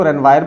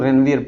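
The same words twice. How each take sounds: First: रेनवायर with a "vire" ending, rhyming with "wire"; alternative pronunciation. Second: रेनवियर with a "vee-er" ending; alternative pronunciation. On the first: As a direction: say रेनवायर, ending in a long "eye-r" glide. कुछ लोग इसको रेनवायर पढ़ते हैं. (रेनवायर, आख़िर में "वायर" की आवाज़) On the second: कुछ लोग रेनवियर पढ़ते हैं. (रेनवियर, आख़िर में "वियर" की आवाज़) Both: Shown as a demonstration.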